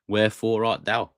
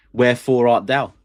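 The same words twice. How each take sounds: First: Said in the usual way. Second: Loud, theatrical Shakespeare line; Shakespeare recital. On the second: Acted. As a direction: declaim it like a stage actor. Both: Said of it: "I'm a big fan of Shakespeare".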